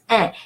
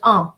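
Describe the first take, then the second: First: The vowel is pronounced as a nasal e. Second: The vowel is pronounced as another nasal vowel. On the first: The speaker calls it right. "it's un" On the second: The speaker calls it wrong. "it's not un"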